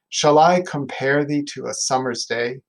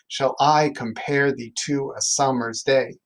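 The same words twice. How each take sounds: First: The beat is softened into natural speech. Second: Stress falls clearly on every second syllable.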